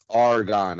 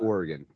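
First: The name is clipped, sounding like 'Argonne'. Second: The name is said fully, sounding like 'Oregon'. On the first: This is how locals say it. The speaker calls it right. "If you guys ever find yourself in Philly, it's Argonne Ave" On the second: This is not how locals say it. The speaker calls it wrong. "It's not Oregon"

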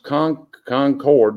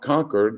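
First: It is said the local North Carolina way. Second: It is said the Massachusetts way. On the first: The speaker calls it right. "That is pronounced Concord" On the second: The speaker calls it wrong. "not Concord, like they say it in Massachusetts up north"

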